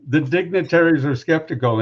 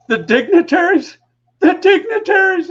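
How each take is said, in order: First: Said in the usual way. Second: High, loud mocking repeat, cracking up; mocking the dignitaries in a high laughing voice. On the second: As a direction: imitate a boss laughing at the word, much higher. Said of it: "starts falling all over himself laughing".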